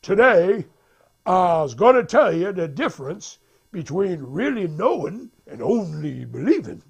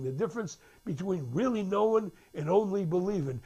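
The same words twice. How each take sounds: First: Loud, emphatic preacher delivery; prédicateur. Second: Said in the usual way. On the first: Retold or imitated. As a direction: proclaim it like a preacher to the congregation. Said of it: "the preacher says". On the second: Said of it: "they're talking now".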